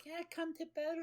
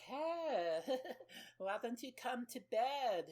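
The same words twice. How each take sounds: First: Put-on demon voice sliding into a growl. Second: High, put-on woman's voice with a giggle; mock come-on. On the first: Naked lady turning monstrous, demon voice. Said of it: "Like, demon voice". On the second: Woman luring a man to bed, mock high coo. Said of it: "and she's like".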